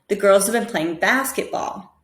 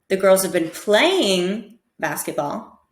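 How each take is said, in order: First: The word basketball carries the main stress. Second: The word playing carries the main stress. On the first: "So basketball is the most important there" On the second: "try and stress each word differently"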